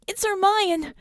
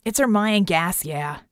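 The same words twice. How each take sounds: First: High-pitched urgent shout; frantic raised voice, much higher. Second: Terse reply, falling away at the end; grunted. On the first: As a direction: shout the discovery in alarm. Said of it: "she shouted". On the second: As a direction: grunt it out, matter-of-fact. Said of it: "Red grunted". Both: A narrator's reading.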